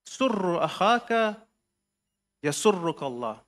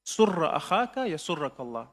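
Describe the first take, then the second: First: Slow, each word set apart with long pauses; slow spaced recitation. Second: Said in the usual way. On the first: Shown as a demonstration. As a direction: read it out slowly, pausing between phrases. Imam's letter quoted, first reading.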